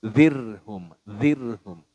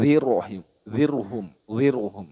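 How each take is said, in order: First: "Zirhum" with a thin trilled r; light tarkik r in "zirhum"; thin closed r. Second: "zirhum" said as "ziruhum", heavy r; thick r with added vowel. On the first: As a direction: roll the r in "zirhum" straight into h, no vowel between. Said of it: "seperti itu". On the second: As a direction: put a short rounded vowel after the r in "zirhum". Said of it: "Nah, itu kurang tepat". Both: Shown as a demonstration.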